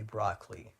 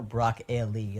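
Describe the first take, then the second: First: Two-syllable "broccoli", BROCK-lee; Californian pronunciation. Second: "broccoli" broken up as BROCK-eh-lee; mock the middle syllable, BROCK-EH-lee in "broccoli"; mocked pronunciation. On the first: Shown as a demonstration. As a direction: drop the middle vowel of "broccoli": BROCK-lee. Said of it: "I say broccoli". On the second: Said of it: "Like, what is that?".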